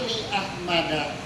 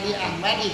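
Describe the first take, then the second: First: The name ends with an a vowel. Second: The name ends with an i vowel. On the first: The speaker calls it right. "Hal li ahmada qolamun" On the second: The speaker calls it wrong. "Bukan li ahmadi kan?"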